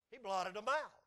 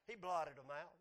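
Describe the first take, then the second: First: "He blotted 'em out" repeated louder, punching "out"; emphatic repeat. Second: Said in the usual way. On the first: Real, not acted. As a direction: drive home "out" with more force. Preacher repeats line for emphasis.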